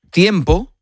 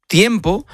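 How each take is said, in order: Both takes have the same delivery.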